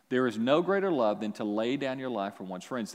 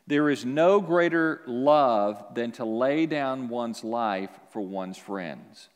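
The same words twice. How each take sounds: First: Said in the usual way. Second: Slow scripture reading. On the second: Shown as a demonstration. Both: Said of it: "John fifteen, verse thirteen".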